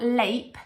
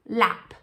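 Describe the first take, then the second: First: The vowel is long, like the letter name. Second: The vowel is short, as in cat. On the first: The speaker calls it wrong. "It's not lape" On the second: The speaker calls it right. "making a short vowel sound"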